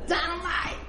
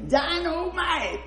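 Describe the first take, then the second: First: High, hammed-up "Dynamite!"; mock-dramatic teacher exclamation; mock teacher shout. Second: High, slow, drawn-out "Dynamite!"; hammed-up teacher exclamation; teacher's shout. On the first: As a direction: belt it out like the teacher. Teacher announcing quiz, retold. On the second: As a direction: stretch "Dynamite!" out like a startled teacher. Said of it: "She said".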